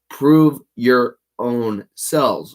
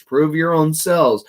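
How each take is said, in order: First: Slow, weighty reading with PROVE leaned on; slow emphasis. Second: "Prove your own selves" said higher, with the peak on selves; raised quote. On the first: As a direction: draw out "prove your own selves" slowly, stress on prove. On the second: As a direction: lift the quote up high and land on selves. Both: Shown as a demonstration.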